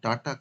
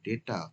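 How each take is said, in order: First: The first vowel sounds like 'ah'. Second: The first vowel sounds like 'ay'. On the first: The speaker calls it wrong. "Not ডাটা" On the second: The speaker calls it right. "কিন্তু ডেটা"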